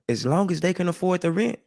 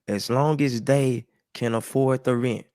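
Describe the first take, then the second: First: It is said at normal speed. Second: It is said slowly.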